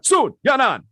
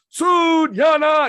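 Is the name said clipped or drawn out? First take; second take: clipped; drawn out. First: The name is said crisply and clipped. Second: The name is said slowly and drawn out. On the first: The speaker calls it right. "you have to pop it in there" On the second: The speaker calls it wrong. "you can't draw Sun Yanan"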